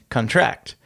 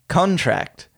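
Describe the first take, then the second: First: The stress is on the last syllable. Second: The stress is on the first syllable. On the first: The word is a verb. "the latter is a verb" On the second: The word is a noun. "The former is a noun"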